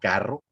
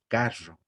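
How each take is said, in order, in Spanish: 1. La R suena como en el acento del hablante. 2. La R suena como en el acento de la sierra. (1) "como yo lo estoy diciendo" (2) "en muchos lugares, por ejemplo, de la sierra, se pronuncia la R de manera diferente"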